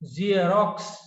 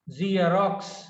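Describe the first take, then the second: No difference in how they are said.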